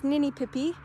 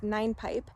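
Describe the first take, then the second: First: The name is said with four syllables. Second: The name is said with two syllables. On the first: The speaker calls it wrong. "it's often mispronounced as Ninipipi" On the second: The speaker calls it right. "I knew it was always pronounced Nine Pipe"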